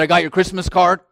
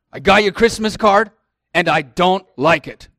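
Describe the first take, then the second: First: A gruff, fast imitation of dad; imitating his dad. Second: Higher, louder mock of the upset father; lightly voiced grumpy dad; imitating his dad. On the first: Imitating his upset father on FaceTime, fast and gruff. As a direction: mimic the father's grumbling tone. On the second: Repeating dad's complaint about the card, higher and louder. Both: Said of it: "That's how he sounds".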